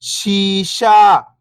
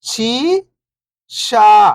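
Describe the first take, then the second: First: Whole word, level then falling at the end; syllables blended. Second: First syllable lifting, pause, second falling. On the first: Teacher showing beginners the joined word, syllables blended. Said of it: "तो मिलके बन जाएगा". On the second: Teacher breaking a word down for beginning readers, syllable by syllable. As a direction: sound out each syllable alone, long and separated. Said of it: "एक अक्षर का उच्चारण करके". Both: Shown as a demonstration.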